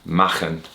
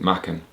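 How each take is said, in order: First: The name is pronounced the Welsh way. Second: The name is pronounced a non-Welsh way. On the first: This is how a Welsh speaker would say it. "as a Welsh speaker, I should say Machen" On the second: This is how the bearer of the name said it. "he actually pronounced it Machen"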